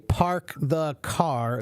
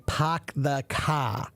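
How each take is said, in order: First: It is said without a Boston accent. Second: It is said in a Boston accent. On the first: "they don't say park the car" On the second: "in Boston, they have a different accent where they say"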